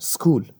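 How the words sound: The word starts directly with the s sound. The speaker calls it right. "تلفظ صحیح انگلیسیش میشه سکول"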